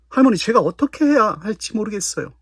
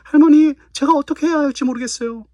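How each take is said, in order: First: It is said in the speaker's normal voice. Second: It is said in a put-on female voice.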